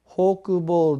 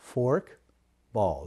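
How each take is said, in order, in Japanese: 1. 日本語のカタカナ風の発音で言います。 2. 英語風の発音で言います。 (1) "あれはフォークボールではなく" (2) "フォークボールです。これから発音に注意していただければ"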